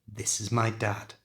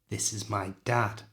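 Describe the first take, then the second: The two takes are said the same way.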